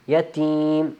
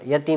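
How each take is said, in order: First: The second vowel is drawn out a little longer. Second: The second vowel is said short, not drawn out. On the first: The speaker calls it right. "इसको थोड़ा यतीम थोड़ा सा लंबा करना है" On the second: The speaker calls it wrong. "यतीम नहीं"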